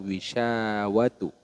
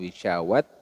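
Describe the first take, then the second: First: The word ends with a tu sound. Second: The word ends with a t sound. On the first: "atau wisyawatu" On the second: "bukan wisyawat"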